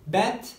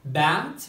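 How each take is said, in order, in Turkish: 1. Ünlü kapalı, çene çok az aşağı indirilmiş. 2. Ünlü açık, çene aşağı indirilmiş. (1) "bizler genellikle bat, cat diye duyuyoruz" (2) "açık E dediğimiz gibi çenemizi aşağıya doğru indirmemiz gerekiyor"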